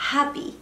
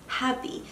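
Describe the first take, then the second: First: Said in the usual way. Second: Happy whispered, softer, no voice. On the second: Shown as a demonstration. Vlogger echoing her own word to viewers, whispered.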